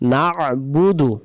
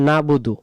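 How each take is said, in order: First: The word is said with the throat sound. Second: The word is said without the throat sound. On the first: The speaker calls it right. "আইন অক্ষরটা আদায় করার জন্য আমাদের বলতে হবে নাবুদু" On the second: The speaker calls it wrong. "অনেকে আমরা বলে ফেলি নাবুদু"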